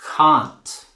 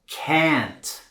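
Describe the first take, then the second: First: It is said in a British accent. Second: It is said in an American accent. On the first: "and a British accent" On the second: "pronounced with an American"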